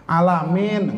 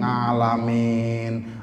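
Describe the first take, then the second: First: The word starts with a plain vowel sound. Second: The word starts with an ng sound. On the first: The speaker calls it right. "dibenerin sama guru ngajinya" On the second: The speaker calls it wrong. "Ngalamin apa situnya?"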